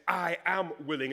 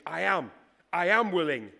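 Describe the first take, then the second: First: Said in the usual way. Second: I am willing, louder and hammered on am; powerful declaration. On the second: Retold or imitated. Preacher voicing Jesus' forceful promise to the leper, emphatic. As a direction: hit am hard, full of resolve. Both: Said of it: "it's really quite powerful".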